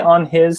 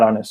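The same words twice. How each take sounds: First: The two words are said separately, not smoothly joined. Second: The two words are joined smoothly into one unit. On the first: The speaker calls it wrong. "the rhythm is not as clean" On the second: The speaker calls it right. "Make it smooth"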